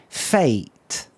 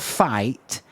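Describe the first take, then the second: First: The vowel is a Scottish 'ay' sound. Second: The vowel is a standard 'eye' sound. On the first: "you change it for a, a" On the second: "Instead of fight"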